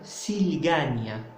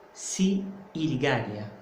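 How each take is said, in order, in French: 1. Le premier i tombe, ce qui donne une seule syllabe s'il. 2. Les deux voyelles se prononcent séparément, si puis il. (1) "j'enlève le premier i et ça devient s'il gagne" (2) "On ne peut pas dire si il gagne"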